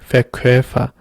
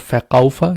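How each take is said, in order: First: The middle vowel is an umlauted 'oy' sound. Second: The middle vowel is a plain 'ow' sound. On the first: The speaker calls it right. "here's also an umlaut. That's why you say Verkäufer" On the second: The speaker calls it wrong. "not Verkäufer"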